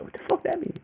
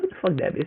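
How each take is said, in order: First: Hushed baffled whisper. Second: Said in the usual way. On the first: Retold or imitated. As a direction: whisper "What the fuck that mean?" in disbelief. Confused by the brother's hint.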